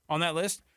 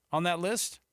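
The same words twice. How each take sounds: The two takes are said the same way.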